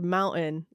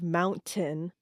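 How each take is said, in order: First: The T is replaced by a glottal stop. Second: The T is fully pronounced.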